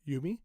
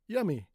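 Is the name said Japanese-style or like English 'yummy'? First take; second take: Japanese-style; like yummy. First: The name is said with Japanese-style vowels. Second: The name sounds like the English word yummy. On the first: The speaker calls it right. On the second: The speaker calls it wrong.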